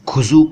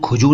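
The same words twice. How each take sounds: First: It is said with the nuqta consonant sounds. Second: It is said without the nuqta consonant sounds. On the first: The speaker calls it right. "नुक्ते हैं उनकी सही delivery" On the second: The speaker calls it wrong. "खुजू नहीं"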